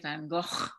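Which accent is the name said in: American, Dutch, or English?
Dutch. It is said the Dutch way, gutturally. "the Dutch say it in a very guttural way"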